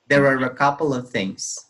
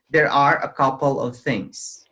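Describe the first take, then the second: First: The words are blended smoothly together. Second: Each word is pronounced clearly and separately. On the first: "And you try to blend" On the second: "so you can pronounce the words clearly"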